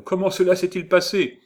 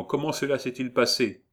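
First: High, loud, urgent question; acted burst of curiosity; eager questioning. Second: Said in the usual way. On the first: A narrator's reading. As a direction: ask breathlessly keen for news. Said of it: "lui dit-il en courant au-devant d'elle".

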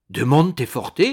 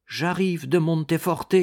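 First: Loud, astonished echo of the name; sudden loud exclamation on hearing the place; startled exclamation. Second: Said in the usual way. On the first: A narrator's reading. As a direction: cry it back in surprise. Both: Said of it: "s'écria Ragastins".

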